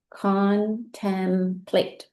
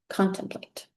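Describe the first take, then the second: First: 把Contemplate拉长，一个音节一个音节慢慢读; slow blending. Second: Said in the usual way. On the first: Shown as a demonstration. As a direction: stretch Contemplate out slowly, sounding each syllable. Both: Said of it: "Now let's read it".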